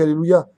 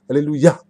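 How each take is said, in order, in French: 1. Le mot se prononce sans son h. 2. Le mot se prononce avec un son h. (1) "Il n'y a pas marqué Alléluia" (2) "Avec un hé. Prononce bien"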